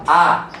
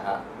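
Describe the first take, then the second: First: The sound is loud and strong. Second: The sound is weak and hesitant. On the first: "hanya kuat" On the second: "hanya ragu-ragu"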